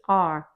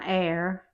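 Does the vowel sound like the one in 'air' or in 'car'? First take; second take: car; air. First: The vowel sounds like the one in 'car'. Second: The vowel sounds like the one in 'air'. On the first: The speaker calls it right. "it's R. But it's more like star and car" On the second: The speaker calls it wrong. "It's not air"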